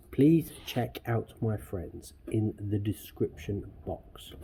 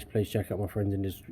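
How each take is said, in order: First: Slow, deliberate, every word placed; careful slow reread of the outro line; slow careful retake. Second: Said in the usual way. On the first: Shown as a demonstration. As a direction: say it slowly so it comes out right this time. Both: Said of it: "So I can say it".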